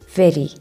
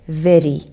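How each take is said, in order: Both takes have the same delivery.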